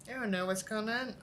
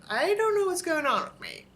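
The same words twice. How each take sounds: First: Said in the usual way. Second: Exasperated outburst. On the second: Real, not acted. Venting to viewers about feeling unwell, exasperated. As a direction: throw up your hands at yourself. Baffled at her own state.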